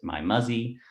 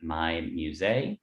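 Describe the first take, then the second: First: The second word sounds like 'muzzy'. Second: The second word sounds like French 'musée'. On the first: It is how many people misread the name. The speaker calls it wrong. "a lot of people in North America pronounced it" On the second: It is the intended name. The speaker calls it right. "a play on the French word for museum"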